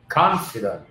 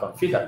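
First: The stress is on the first syllable. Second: The stress is on the second syllable. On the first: The speaker calls it right. "trong âm trần con" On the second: The speaker calls it wrong. "không phải là confident"

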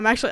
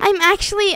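First: It is said in his normal voice. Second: It is said in a put-on girl voice.

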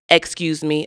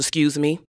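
First: It is said in a slower, white-sounding style. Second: It is said in her own usual style. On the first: The speaker calls it right. "I'll slow my speech down. I'll say things like" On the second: The speaker calls it wrong. "as opposed to"

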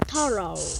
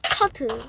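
First: It is said with an American accent. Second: It is said with a British accent. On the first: "미국식 발음은" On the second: "영국식 발음은"

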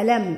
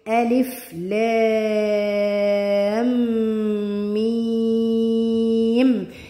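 First: It is read as a single short word. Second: It is read as three separate letter names. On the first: The speaker calls it wrong. "مش بقول بقى ألم، اوعي حد يقول لي ألم" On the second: The speaker calls it right. "بقول ايه؟ ألف لام ميم"

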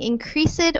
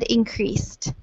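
First: The ending is said as an extra syllable. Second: The ending blends in with a silent E. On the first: The speaker calls it wrong. "instead of saying increased" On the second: The speaker calls it right. "These both have a silent E here"

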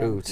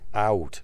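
First: The vowel sounds close to 'oo'. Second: The vowel is a diphthong, not 'oo'. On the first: This is the stereotype outsiders hear. The speaker calls it wrong. "the one we always hear is oot. Say oot again" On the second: This is how it is actually said. The speaker calls it right. "We don't say oot"

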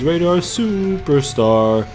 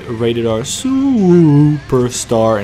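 First: It is said flatly with little energy. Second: It is said loudly with big energy. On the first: This is how the game version says it. The speaker calls it wrong. "He's just rated R superstar" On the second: This is how the announcer really says it. The speaker calls it right. "He doesn't even say it like that"

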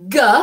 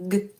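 First: The sound is drawn out with a vowel after it. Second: The sound is clipped short with no vowel. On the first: The speaker calls it wrong. "it's not g" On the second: The speaker calls it right. "We keep it short"

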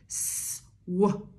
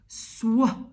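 First: The two sounds are said apart, with a break. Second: The two sounds are said together, with no break. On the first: The letters are sounded one at a time. "W makes the sound wuh" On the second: The letters are blended into one sound. "Then they decide to be friends"

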